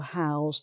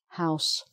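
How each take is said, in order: First: The word ends with a Z sound. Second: The word ends with an S sound. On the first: It is a verb meaning to give someone a place to live. "So that's the verb" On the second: It is a noun naming a building. "So another S sound"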